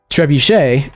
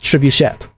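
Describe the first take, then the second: First: The word is said with a French pronunciation. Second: The word is said with an English pronunciation. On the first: "it is pronounced trebuchet in French" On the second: "should be pronounced trebuchet in English"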